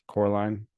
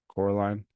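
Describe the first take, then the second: Both takes have the same delivery.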